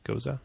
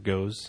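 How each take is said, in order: First: The word has two syllables, ending in a vowel. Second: The word has one syllable, rhyming with goes. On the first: The speaker calls it right. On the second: The speaker calls it wrong.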